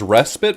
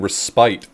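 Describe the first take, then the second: First: The last syllable sounds like 'pit'. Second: The last syllable rhymes with 'tie'. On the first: This is the usual everyday pronunciation. "I always hear this pronounced as respite" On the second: The word is bent to fit the poem's rhyme. "I think they're rhyming respite"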